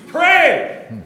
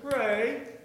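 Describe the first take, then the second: First: The word is said loudly and clearly. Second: The word is said softly and unclearly.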